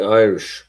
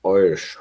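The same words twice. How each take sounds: First: Said in the usual way. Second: IRISH in a put-on Irish accent. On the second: Shown as a demonstration. Testing the accent, mock Irish. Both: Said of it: "This sounds like Irish".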